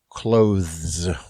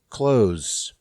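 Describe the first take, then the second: First: Every written syllable is pronounced in the word. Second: One written syllable is dropped from the word. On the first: The speaker calls it wrong. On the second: The speaker calls it right. "more syllables written than there are pronounced"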